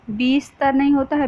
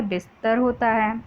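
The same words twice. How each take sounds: First: "बीस्तर" with a long ई in the first syllable; wrong long vowel. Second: "बिस्तर" with a short इ; correct short vowel. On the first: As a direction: say "बीस्तर" stretching बी as a mistake. ("बीस्तर" में बी को लंबा खींचकर, गलत उच्चारण) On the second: ("बिस्तर" में छोटी इ, सही उच्चारण) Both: Shown as a demonstration.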